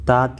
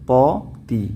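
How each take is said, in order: First: The first t is light, with a plain vowel. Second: The first t is heavy, with a dark vowel. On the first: The speaker calls it wrong. "താത്തി അല്ല" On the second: The speaker calls it right.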